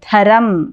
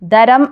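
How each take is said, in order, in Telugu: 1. మొదటి హల్లును ఊపిరితో పలుకుతారు. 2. మొదటి హల్లును ఊపిరి లేకుండా పలుకుతారు.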